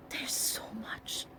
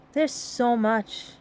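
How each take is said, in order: First: Slow breathy whisper. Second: Said in the usual way. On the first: Real, not acted. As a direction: drop to a whisper. Aside whispered while sorting things.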